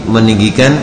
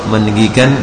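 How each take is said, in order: No difference in how they are said.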